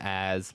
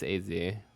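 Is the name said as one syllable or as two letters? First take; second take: one syllable; two letters. First: The name is said as one syllable. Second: The name is said as two separate letters. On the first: This is the usual casual way to say it. "I usually call him Az" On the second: This is the technically correct form. "technically it's A Z"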